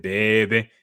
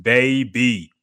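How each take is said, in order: First: Put-on "Baby" in a teasing New Orleans accent, louder; mocked New Orleans pronunciation. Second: Said in the usual way. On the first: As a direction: say "Baby" with short, slurred New Orleans vowels. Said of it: "make fun of her because the way she said". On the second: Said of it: "like, it's baby".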